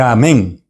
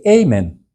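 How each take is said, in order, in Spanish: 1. El acento está en la última sílaba. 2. El acento está en la primera sílaba. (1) "termina acentuado al final" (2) "ellos dicen amen"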